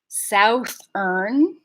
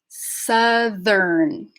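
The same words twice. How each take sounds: First: The first vowel is the gliding 'ow' sound. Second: The first vowel is a short 'a' sound. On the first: The speaker calls it wrong. "So now it's not southern" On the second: The speaker calls it right. "the sow part of it changes to sa"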